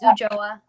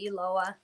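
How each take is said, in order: First: The middle consonant sounds like a Y or J. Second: The middle consonant sounds like an L. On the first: "The two L's make a Y or a J sound in Spanish" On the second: "most people pronounce it Uloa"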